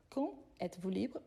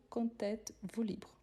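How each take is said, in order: First: "quand êtes-vous libre" with silent D, words kept apart; no liaison. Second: "quand êtes-vous libre?" linked with a T sound; with liaison. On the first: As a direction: separate "quand" from "êtes" without a T. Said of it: "normalement on ne fait pas la liaison". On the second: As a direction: run "quand" into "êtes" through a T. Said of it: "plus on fait la liaison". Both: Shown as a demonstration.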